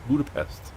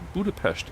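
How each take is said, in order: First: The name is said the English way. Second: The name is said the Hungarian way. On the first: The speaker calls it right. "Just pronounce it the way it's pronounced in English" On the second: The speaker calls it wrong. "it's not Budapest"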